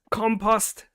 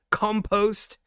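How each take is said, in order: First: "compost" said KAHM-pahst, second syllable ah; "compost" with open ah vowels. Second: "compost" said KAHM-pohst, second syllable oh; "compost" ending in a long o; compost with an oh vowel. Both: Shown as a demonstration. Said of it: "however you may say it".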